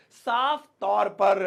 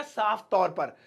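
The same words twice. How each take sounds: First: "साफ तौर पर" slowly, word by word; slow repetition. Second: Said in the usual way. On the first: Shown as a demonstration. Teacher telling students what clearly means, slow and measured. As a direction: space out and lengthen "साफ तौर पर".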